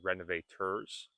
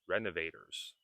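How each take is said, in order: First: The word is said in a careful, full form. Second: The word is said in a quicker, reduced form. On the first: "It is okay to say renovators" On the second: "when you begin speaking quicker, you can say renovators"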